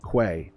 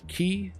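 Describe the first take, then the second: First: The word starts with a kw sound, kway. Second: The word rhymes with 'see', like key. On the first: "all acceptable pronunciations" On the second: "all acceptable pronunciations"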